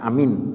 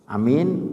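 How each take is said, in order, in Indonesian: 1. Vokal pertama dibaca pendek. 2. Vokal pertama dibaca panjang. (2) "agak panjang ya"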